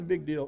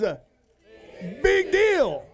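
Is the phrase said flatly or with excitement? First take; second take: flatly; excitement. First: It is said flatly, with little energy. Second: It is said with excitement and strong energy. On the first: It does not seem to matter much. The speaker calls it wrong. "if you say it with little eyes, it's a big deal. It doesn't mean much" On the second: It really matters. The speaker calls it right. "But you say something with big eyes, that means something"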